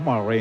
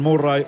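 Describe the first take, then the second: First: The name is said with English sounds. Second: The name is said with Spanish sounds. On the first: This is how the name is really pronounced. "Como se pronuncia" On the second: This is the local, Latinized way of saying it.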